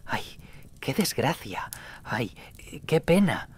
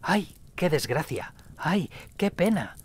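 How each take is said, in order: First: A voice lamenting outside the inn; lament from the street. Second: Put-on high, wavering old voice repeating the cry; an old man keening as he walks; a mournful old man repeating his cry; old man's lament. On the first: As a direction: call out your grief down the street. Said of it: "escuché una voz en la calle". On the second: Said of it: "caminaba y repetía". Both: A narrator's reading.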